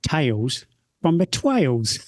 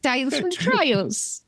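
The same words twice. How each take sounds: First: Slow, put-on southern English accent, a bit Australian. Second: High, slow hammed-up cockney accent. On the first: Shown as a demonstration. Host trying a southern English accent for the segment title. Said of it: "should I try and do a southern accent". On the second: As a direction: parody a chimney sweep's cockney, slowly.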